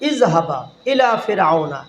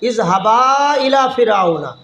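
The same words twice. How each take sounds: First: The first word ends with a short vowel. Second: The first word ends with a drawn-out vowel. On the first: One person is told to go. "না টান দিলে একজন হবে" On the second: Two people are told to go. "টেনে বললে তখন দুজন মানে হবে"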